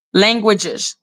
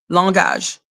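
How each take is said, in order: First: "Languages" said in English, LANG-gwi-jiz; English pronunciation. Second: "langage" said in French, lan-GAHZH; French pronunciation. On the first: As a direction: say "Languages" with gw and a j sound. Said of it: "in English, languages". (« Languages » prononcé à l'anglaise) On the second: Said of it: "in French, we say langage". (« langage » prononcé à la française) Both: Shown as a demonstration.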